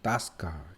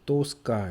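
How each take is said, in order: First: The first vowel sounds like 'a'. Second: The first vowel sounds like 'o'. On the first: "액센트가 뒤에 있으면 오가 아 발음 납니다" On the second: "써있기는 이제 또스카 이렇게 써있지만"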